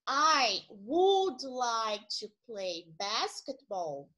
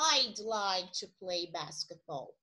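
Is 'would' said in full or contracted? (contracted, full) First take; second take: full; contracted. First: Would is said as a full separate word. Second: Would is shortened to a d sound. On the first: "uma frase que seria" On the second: "Aqui fica"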